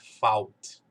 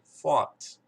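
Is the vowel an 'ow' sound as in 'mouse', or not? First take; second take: ow; not ow. First: The vowel is the 'ow' sound. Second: The vowel is not the 'ow' sound. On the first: The speaker calls it wrong. "não é a mesma coisa, não é fault" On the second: The speaker calls it right. "aqui é fault"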